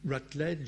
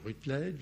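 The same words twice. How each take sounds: First: The name is pronounced with English sounds. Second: The name is pronounced with French sounds. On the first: "à l'anglaise" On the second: "prononcer à la française"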